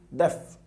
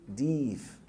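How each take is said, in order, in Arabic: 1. الحركة قصيرة. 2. الحركة طويلة. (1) "لا قول دف" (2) "اوعى تقول ديف"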